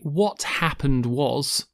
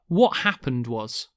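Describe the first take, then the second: First: The T in 'what' is clearly released. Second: The T in 'what' is a glottal stop. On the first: The speaker calls it wrong. "We don't say what happened was" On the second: The speaker calls it right. "the very strong glottal T on what"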